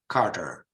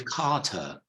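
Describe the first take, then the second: First: It is said with an American accent. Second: It is said with a British accent.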